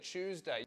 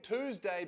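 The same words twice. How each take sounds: First: It is said with a British pronunciation. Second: It is said with an American pronunciation. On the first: The speaker calls it right. "you don't have the ability to say Tuesday" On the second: The speaker calls it wrong. "You're saying Tuesday"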